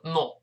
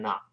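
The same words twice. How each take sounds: First: British "not" with a rounded o; British short-o "not"; British pronunciation. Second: American "not" with an open "ah"; American unrounded vowel in "not"; American pronunciation. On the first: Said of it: "英国人都说not". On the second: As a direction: say "not" as "naht", American style. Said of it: "美音O变成啊". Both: Shown as a demonstration.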